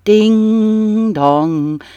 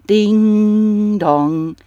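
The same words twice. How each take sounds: First: Sung bell tone, held high then falling; bell chime. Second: Second bell chime in another tone; bell echo. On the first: Narrator rings the church bells in the story, as a high chime. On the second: Narrator rings the church bells again, as an echoing chime. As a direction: let the bell ring once more, fading. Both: Acted.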